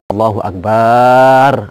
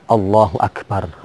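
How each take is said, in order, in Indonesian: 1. Vokal setelah bunyi b dipanjangkan. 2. Tidak ada vokal yang dipanjangkan melebihi panjang normal.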